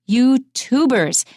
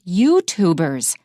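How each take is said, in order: First: The stress falls heavily on the second syllable. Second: The stress falls on the first syllable. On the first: The speaker calls it wrong. "when you stress it so much and you say YouTuber" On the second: The speaker calls it right. "people who make YouTube videos are YouTubers"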